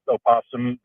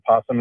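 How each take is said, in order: First: The word starts with an extra vowel sound. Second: The word starts directly with the p sound. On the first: "is the correct way of saying it" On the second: "It's just kind of the lazy way of saying it"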